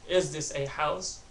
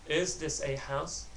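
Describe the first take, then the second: Both takes have the same delivery.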